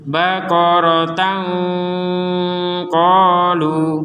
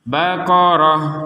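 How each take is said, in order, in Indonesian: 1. Kata ini berakhir dengan bunyi t, yang menyambung. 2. Kata ini berakhir lembut dengan bunyi h.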